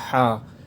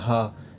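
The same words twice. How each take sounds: First: It begins with a strained h from the throat. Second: It begins with a plain, light h sound. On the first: The speaker calls it right. "इसको हलक से पढ़ना है" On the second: The speaker calls it wrong. "इसको भी नॉर्मली पढ़ देते हैं"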